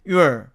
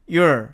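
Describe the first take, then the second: First: The vowel after y is a clear oo sound. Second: The vowel after y is a clear oo sound.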